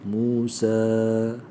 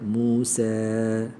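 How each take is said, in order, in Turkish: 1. Son ünlü net, açık bir 'a'. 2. Son ünlü 'e' sesine doğru eğiliyor.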